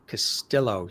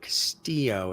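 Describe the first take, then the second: First: The double L is pronounced as L. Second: The double L is silent. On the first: "as opposed to" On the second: "I like how you say it"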